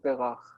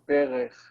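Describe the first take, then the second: First: The second syllable has an 'a' vowel. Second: The second syllable has an 'e' vowel. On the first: This is the biblical form. "in the Bible, instead of berech, it says berach" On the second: This is how it is said today. "we say berech"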